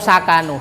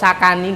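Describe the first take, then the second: First: The word ends with a u vowel. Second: The word ends with an i vowel. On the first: "Atau sakanu" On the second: "Gak boleh fi'il madhi kok sakani, gak boleh"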